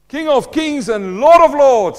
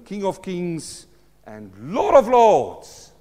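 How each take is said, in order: First: It is said loudly, with strong energy. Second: It is said fairly quietly, with restrained energy. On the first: The speaker calls it right. "I don't want to wake the baby up in the room" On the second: The speaker calls it wrong. "Did I say that right, Andre? No, I think I can do better"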